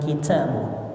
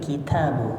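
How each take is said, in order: First: The t is released with a heavy puff of breath. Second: The t is released with only slight breath. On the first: The speaker calls it wrong. "Jangan kitabu" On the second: The speaker calls it right. "tapi kitabu biasa"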